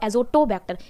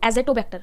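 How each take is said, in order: First: The second syllable is pronounced 'zo'. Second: The second syllable is pronounced 'ze'. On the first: The speaker calls it right. "एजोटोबैक्टर सही शब्द है" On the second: The speaker calls it wrong. "This is not एजेटोबैक्टर"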